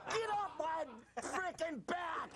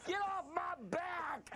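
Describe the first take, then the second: First: Slow yell breaking into laughter; laughing yell. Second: Slow hammed-up shout; mock yell. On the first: Acted. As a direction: shout it while cracking up. Mock rant, laughing. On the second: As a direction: rant it, slow and big. Mock rant on Tiger jokes.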